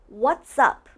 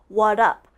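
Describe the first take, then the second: First: Both words are said, blended together. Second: The s sound is dropped from the first word. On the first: The speaker calls it right. "It's almost like what's and up are blended" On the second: The speaker calls it wrong. "They take out the S"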